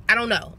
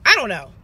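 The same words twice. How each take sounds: First: Said in the usual way. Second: "I don't know" said again, louder and firmer; louder insistent repeat. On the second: Real, not acted. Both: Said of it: "repeats it".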